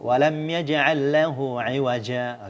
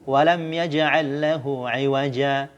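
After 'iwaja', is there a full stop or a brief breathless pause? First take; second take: full stop; brief pause. First: It ends in a full stop before continuing. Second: A brief breathless pause leads into the next phrase. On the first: "kalau berhenti kan normal saja" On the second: "kalau mau uh, saktah"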